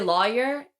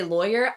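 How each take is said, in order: First: "lawyer" imitated as LAW-yer; co-host's pronunciation. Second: "lawyer" as LOY-er; own pronunciation. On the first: Contrasting the co-host's lawyer with her own, co-host's pronunciation. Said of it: "when I hear you say lawyer". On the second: Shown as a demonstration. Contrasting her lawyer with the co-host's, own pronunciation. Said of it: "and I say lawyer".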